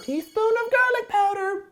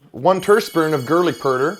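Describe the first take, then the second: First: Squeaky high voice. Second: Said in the usual way. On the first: Pretend. Repeats line in a squeaky voice.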